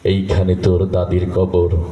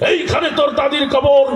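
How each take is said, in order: First: It is recited gently, like a tender poem. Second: It is declaimed loudly, like a fiery political speech. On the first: A normal reciter performs the poem beautifully. "তার আবৃত্তি মোটামুটি অনেক সুন্দর ছিল" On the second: A politician recites it like a campaign speech. "রাজনীতির মঞ্চে গরম বক্তব্য দিয়ে অভ্যাস, তা ওই নেতার আবৃত্তির ঢং ছিল এরকম"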